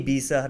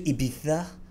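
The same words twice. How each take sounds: First: The name is said with an English pronunciation. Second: The name is said with a Spanish-style pronunciation. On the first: The speaker is just talking in English. The speaker calls it right. "dude, just say Ibiza" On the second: The speaker is showing off. The speaker calls it wrong. "I found it so superficial when cool people are like"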